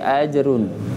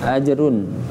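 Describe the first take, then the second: No difference in how they are said.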